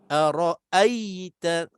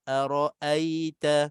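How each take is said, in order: First: The ya sound is pressed hard and tense. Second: The ya sound is light and soft. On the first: The speaker calls it wrong. "macam tekan kan, naik di situ" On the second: The speaker calls it right. "kita sebut dengan mudah dan lembut"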